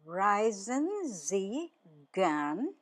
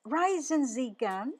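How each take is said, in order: First: "Reisen Sie gern" drawn out slowly, pause before "gern"; slow word-by-word model question; slow teaching repeat. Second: Said in the usual way. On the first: Shown as a demonstration. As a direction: stretch each word for learners. Teacher repeats phrase slowly for learners.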